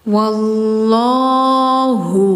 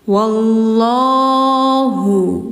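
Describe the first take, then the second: No difference in how they are said.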